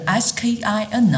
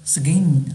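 First: The k is a plain, aspirated k sound. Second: The k is softened, close to a g sound. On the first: "本身的拼写是skin" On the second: "但是其实读起来是skin"

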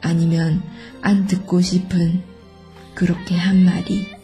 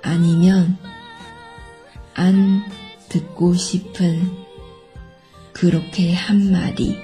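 First: It is said at normal conversational speed. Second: It is said slowly and carefully.

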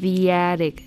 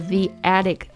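First: A y glide joins the two words. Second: No y glide joins the two words.

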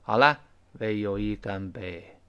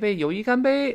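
First: The pitch stays low and flat, gloomy. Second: The pitch lifts upward cheerfully.

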